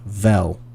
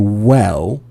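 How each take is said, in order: First: The word begins with a v sound. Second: The word begins with a w sound. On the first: The speaker calls it wrong. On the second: The speaker calls it right.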